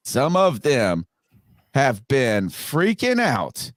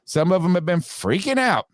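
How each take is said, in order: First: Slow, deliberate, broken by pauses; measured repeat, pausing before "have been freaking out"; slow emphatic repeat. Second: Higher-pitched, flowing delivery; raised pitch. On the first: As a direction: draw out each phrase for effect. Repeats the line slowly for effect. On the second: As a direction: say it higher, in one run. First take before slowed repeat. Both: Real, not acted.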